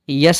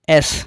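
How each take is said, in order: First: It begins with a y sound before the vowel. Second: It begins directly with the e vowel. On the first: The speaker calls it wrong. "इसे यस नहीं" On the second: The speaker calls it right. "एस पढ़ा जाता है"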